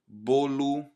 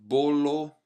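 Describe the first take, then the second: First: The final vowel sounds like U. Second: The final vowel sounds like O. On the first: The speaker calls it right. "we say bolo ... you want this U sound at the end" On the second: The speaker calls it wrong. "Instead of bolo"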